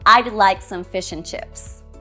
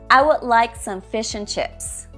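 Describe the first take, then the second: First: Would is contracted to a d sound. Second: The small words are unstressed and reduced.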